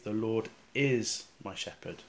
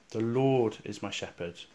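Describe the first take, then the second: First: The stress is on the word is. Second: The stress is on the word Lord. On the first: The Lord truly is the shepherd now. "try emphasising the word is" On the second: It is the Lord and no one else who is the shepherd. "with the emphasis on the words, the Lord"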